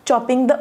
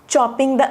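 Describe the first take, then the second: Both takes have the same delivery.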